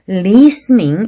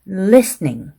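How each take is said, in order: First: The vowel is drawn out long. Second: The vowel is said short. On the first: The speaker calls it wrong. "이렇게 길게 말했다든지" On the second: The speaker calls it right. "단음에는"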